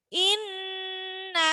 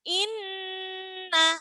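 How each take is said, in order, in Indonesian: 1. Bunyi sengau n ditahan selama tiga ketukan. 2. Bunyi sengau n ditahan selama tiga ketukan.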